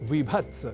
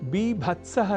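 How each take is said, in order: First: The word begins with a v sound. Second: The word begins with a b sound. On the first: This is the everyday Hindi form. The speaker calls it wrong. "Hindi में हम कहा करते हैं विभत्स" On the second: This is the correct Sanskrit form. The speaker calls it right. "बीभत्सः ही संस्कृत में तो सर्वथा शुद्ध है"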